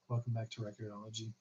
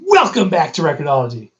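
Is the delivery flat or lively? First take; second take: flat; lively. First: It is said in a flat, monotone voice. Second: It is said in a lively, animated voice. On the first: This is how the early videos sounded. "You mean like I wasn't as animated? Like my first videos" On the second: This is how the videos sound now. "And then now it's like"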